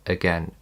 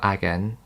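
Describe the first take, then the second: First: The first vowel is a weak schwa. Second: The first vowel is a full vowel. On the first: The speaker calls it right. "let's see where it appears in A" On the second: The speaker calls it wrong. "It's not"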